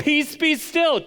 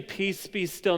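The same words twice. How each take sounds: First: High, loud, drawn-out command; Jesus as sea whisperer. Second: Said in the usual way. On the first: Acted. Preacher acting Jesus commanding the sea, comic forceful shout. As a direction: shout it like a trainer ordering a dog. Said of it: "he's like". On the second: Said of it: "Jesus isn't standing up saying".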